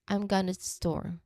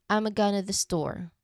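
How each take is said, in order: No difference in how they are said.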